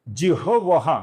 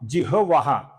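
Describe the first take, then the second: First: The h sound comes before the v sound. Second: The h sound comes before the v sound.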